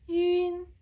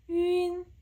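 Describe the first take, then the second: No difference in how they are said.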